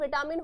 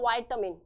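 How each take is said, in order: First: The first vowel sounds like 'ee'. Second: The first vowel sounds like 'eye'. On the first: The speaker calls it wrong. "इसका पता pronunciation विटामिन होता ही नहीं है" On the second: The speaker calls it right. "वाइटामिन होता है इसका pronunciation ना"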